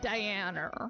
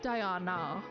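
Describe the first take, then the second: First: The A vowel is far back, with an r-colour. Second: The A vowel is central, with no r-colour. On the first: "That is what's called a rhotic R, and it's actually a new development in British English. The A is moving further back" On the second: "When you say a traditional British A, you say Diana. Your tongue is in the middle"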